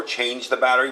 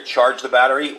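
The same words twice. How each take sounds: First: "Change" said with a long A, tʃeɪndʒ, like the wrong word; how the prompt is misheard, "Change" with long A; change the battery. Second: "Charge" said with an AR sound, tʃɑɹdʒ; the device prompt's real wording, "Charge" with AR; charge the battery. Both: Shown as a demonstration. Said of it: "it's not change the battery".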